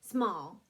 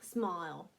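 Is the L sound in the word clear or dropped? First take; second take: dropped; clear. First: The L sound at the end is dropped. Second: The L sound at the end is clear. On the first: It is true Cockney. "that's true because you cut off the L" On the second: The audience can hear it more easily. "they may ask you to add a little more L"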